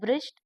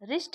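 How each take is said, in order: First: The word begins with a w sound. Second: The word begins directly with an r sound. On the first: The speaker calls it wrong. "अब ब्रिस्ट तो नहीं पढ़ेंगे ना उसको" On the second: The speaker calls it right. "रिस्ट ही पढ़ेंगे ना"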